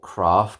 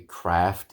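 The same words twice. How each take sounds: First: It is said with a British accent. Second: It is said with an American accent. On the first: "it's gonna be my British pronunciation" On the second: "it would be Craft in the U S"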